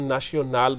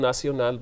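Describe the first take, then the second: First: It is said the South Asian way. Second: It is said the French way. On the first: "हम नाशियो नाल बोल देते हैं" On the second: "वो नासियो नाल बोलते हैं"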